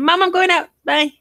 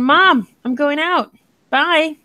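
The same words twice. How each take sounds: First: It is run together quickly without pauses. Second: It is broken up with pauses between parts.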